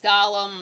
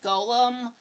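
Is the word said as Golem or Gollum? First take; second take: Gollum; Golem. First: The first vowel is a short o, Gollum. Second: The first vowel is a long o, Golem. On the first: The speaker calls it wrong. "pronounces it incorrectly as Gollum" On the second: The speaker calls it right. "I know it's Golem"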